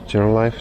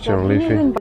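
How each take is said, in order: First: The name ends with a sound like 'life'. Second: The name ends with a sound like 'leafy'. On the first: The speaker calls it wrong. "It's not General Life" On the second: The speaker calls it right. "Okay, confirmed"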